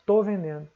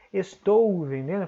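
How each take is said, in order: First: "tô" in one short syllable, the "es" dropped; casual spoken "tô vendendo", as in daily speech; everyday speech, "estou" shortened to "tô"; clipped tô. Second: "estou" with every sound said, es-TOU; careful full "estou vendendo", nothing dropped; the written form, "estou" pronounced in full. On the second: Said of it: "Em vez de falar". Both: Shown as a demonstration.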